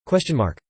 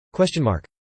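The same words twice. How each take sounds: The two takes are said the same way.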